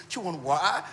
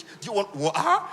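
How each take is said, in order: First: Said in the usual way. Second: Slow, prim Queen's English offer of water. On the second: Retold or imitated. Woman to her crush's friend, in put-on Queen's English. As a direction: put on a proper British accent to sound classy. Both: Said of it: "you're speaking Queen's English".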